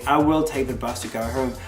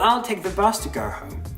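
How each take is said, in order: First: The word will is said in full. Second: The word will is contracted onto I. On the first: "instead of saying" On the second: "he contracted will into apostrophe double L. So it's easier and quicker to say"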